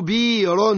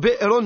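First: A long vowel replaces the glottal stop. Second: A glottal stop follows the first consonant. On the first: This is a dialect form that is still correct Arabic. "يبدلوا الهمزة يردوها حرف مد" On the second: This is the original form of the word. "أصله بئر"

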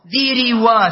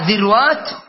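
First: The r carries an i vowel, repeating the first. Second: The r does not carry an i vowel. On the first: The speaker calls it wrong. "ذروات شوف ثقيلة" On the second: The speaker calls it right. "فبقي معنا ذروات وذروات"

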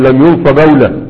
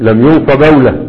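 No difference in how they are said.

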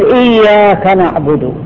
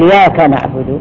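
First: The y sound is doubled and held long. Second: The y sound is single and short. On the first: The speaker calls it right. "فالتشديد التشديد في فاتحة الكتاب" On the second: The speaker calls it wrong. "إذا أهمل وألغي تغير المعنى"

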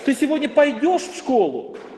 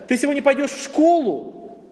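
First: The stress falls on the word пойдешь. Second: The stress falls on the word школу. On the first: The question is about whether or how one goes. "ты в принципе идешь или нет? Или ты пойдешь, или поедешь" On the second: The question is about where one goes. "То есть у тебя есть выбор, в школу, на работу"

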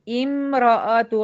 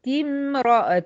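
First: The word opens with a glottal stop and i. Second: The word is linked directly, starting on the m. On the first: "هبدأ امرأة عمران" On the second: "أنا دخلت من التاء المكسورة على الميم"

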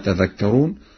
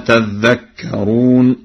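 First: The 'dh' consonant is short. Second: The 'dh' consonant is doubled.

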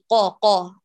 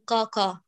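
First: The first consonant is a clear, heavy q. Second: The first consonant sounds light, close to k. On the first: The speaker calls it right. "بل قاقا. اقرأي بقاف فصيح مميز عن صوت الكاف" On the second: The speaker calls it wrong. "فلا تقل"

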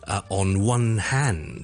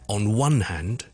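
First: The stress falls on the word hand. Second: The stress falls on the word one. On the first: The speaker calls it wrong. "我们不需要say" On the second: The speaker calls it right. "stress is on the word one"

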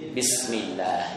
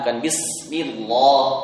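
First: The L is pronounced light and thin. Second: The L is pronounced heavy and thick. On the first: The speaker calls it right. "boleh dibaca tipis ketika ... Kasroh" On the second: The speaker calls it wrong.

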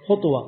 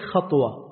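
First: The first vowel is a rounded 'u' sound. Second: The first vowel is an open 'a' sound. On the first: It means the distance between the feet. "وما يكون بين قدميك من مسافة وأنت تخطو تسمى خطوة" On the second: It means the act of stepping. "والفعل خطوة"

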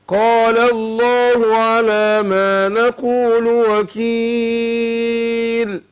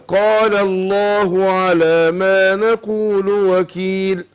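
First: The long vowel in the last word lasts four beats. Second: The long vowel in the last word lasts two beats. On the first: "اربعة" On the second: "حركتين"

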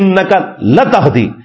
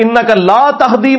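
First: The vowel in 'la' is short. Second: The vowel in 'la' is long. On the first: The listener surely does give guidance. "یہ لام تاکید والی ہے. اگر لا کو چھوٹا کر کے زبر والی لا بنا دیں" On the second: The listener cannot give guidance. "آپ ہدایت نہیں دیتے"

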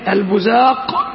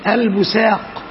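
First: The middle consonant is a z sound. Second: The middle consonant is a plain s sound. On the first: "والثانية بالزاي" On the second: "والثالثة بالسين"

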